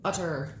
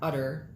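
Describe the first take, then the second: First: The middle consonant is a crisp T. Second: The middle consonant is a soft D. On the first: The speaker calls it right. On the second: The speaker calls it wrong. "not utter. Not talking about a cow's udder"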